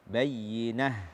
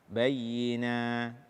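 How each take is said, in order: First: The word ends with a clearly audible h. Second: The word ends in a long vowel, no h. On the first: The speaker calls it right. "Kita baca akhir-akhirnya itu dengan ha yang jelas" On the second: The speaker calls it wrong. "tidak membaca ha dengan jelas ketika waqaf atau menggantinya dengan uh, mad alif"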